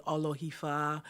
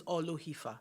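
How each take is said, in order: First: "Olohifa" with the O sounds confused; mispronounced name. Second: "Olohifa" said the owner's own way; correct name pronunciation. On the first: Retold or imitated. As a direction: imitate people getting the O's in "Olohifa" muddled. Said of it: "so people sometimes confuse it". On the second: Shown as a demonstration. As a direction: say "Olohifa" carefully with its proper O sounds. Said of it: "because the O's are different sounds".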